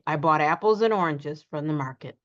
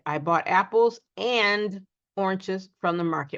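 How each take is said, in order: First: The word 'and' is said quickly and reduced. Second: The word 'and' is said slowly and fully. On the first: The speaker calls it right. "We just simply say" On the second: The speaker calls it wrong. "we don't say, ... We don't slow, slow down to say the and fully"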